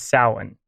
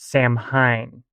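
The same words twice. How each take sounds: First: It is said with the standard Irish pronunciation. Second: It is said as its English spelling suggests. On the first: The speaker calls it right. "the standard Irish pronunciation is Samhain" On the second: The speaker calls it wrong. "at least phonetically in English, Samhain looks like it should be pronounced Samhain"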